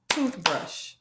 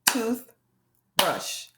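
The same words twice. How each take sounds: First: Toothbrush in two close beats; clapped out, quicker. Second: Toothbrush split in two with a long pause between tooth and brush; clapped-out syllables. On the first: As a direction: say toothbrush with only a tiny break between tooth and brush. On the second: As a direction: say Toothbrush slowly, one beat per syllable. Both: Shown as a demonstration. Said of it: "Can you clap out toothbrush?".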